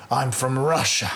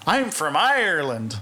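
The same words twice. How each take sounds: First: Barely there Russian accent, imitated; failed Russian accent. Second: Imitating a hopeless Irish accent; a hint of badly faked Irish accent; failed Irish accent. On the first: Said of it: "do a Russian accent". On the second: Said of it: "do an Irish accent".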